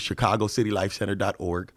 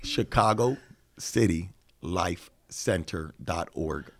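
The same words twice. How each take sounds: First: It is said at a normal pace. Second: It is said slowly and deliberately.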